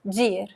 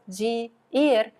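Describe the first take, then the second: First: The two words merge into one syllable. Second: The two words are said as separate syllables.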